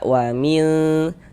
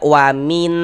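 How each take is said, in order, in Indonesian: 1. Bunyi n tersamar dan bersengau, ditahan sebentar. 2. Bunyi n diucapkan penuh dan jelas. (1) "Ini kita baca wamil" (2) "Jangan dibaca wamin min gitu. Kalau kita baca wamin itu jadinya dia jelas"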